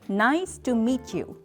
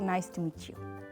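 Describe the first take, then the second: First: Each vowel gets a strong burst of breath. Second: The vowels run flat in one smooth breath. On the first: The speaker calls it right. "이렇게 하면 훨씬 더 자연스러운 영어의 어떤 그 호흡이 되면서" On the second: The speaker calls it wrong. "마치 우리말 하듯이 모음을 쭉 이렇게 한 호흡으로 가셨단 말이에요"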